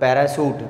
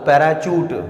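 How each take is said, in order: First: The word is said with an 'sh' sound. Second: The word is said with a 'ch' sound. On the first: The speaker calls it wrong. "पैराशूट नहीं होता वो" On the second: The speaker calls it right. "पैराचूट होता है"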